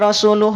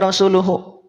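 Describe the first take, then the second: First: The word ends on a bare h sound. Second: The word ends with a final u vowel. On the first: The reader is stopping at a pause mark. The speaker calls it right. "Jadi weh dibaca rasuluh" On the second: The reader is not stopping at a pause mark. The speaker calls it wrong. "bukan dibaca rasuluhu"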